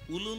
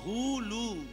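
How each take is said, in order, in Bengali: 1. শব্দটি স্বরধ্বনি দিয়ে শুরু, হ নেই। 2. শব্দটি হ ধ্বনি দিয়ে শুরু। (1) "উলু নয়।" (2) "বইতে লেখা আছে হুলু, হ হ হুলু"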